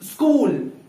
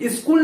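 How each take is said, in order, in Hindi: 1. k से पहले s एक शुद्ध व्यंजन है। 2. s को पूरे अक्षर की तरह बोला जाता है। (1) "आधा सा प्लस का" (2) "स्कूल स्कूल स्कूल स्कूल नहीं बोलना है"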